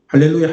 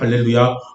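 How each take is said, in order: First: It is said quickly. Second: It is said slowly, broken up.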